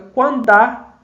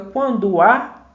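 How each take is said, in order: First: The final vowel merges into one syllable. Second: The final vowel and next vowel stay separate. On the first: "na verdade fica" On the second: "em vez de fica"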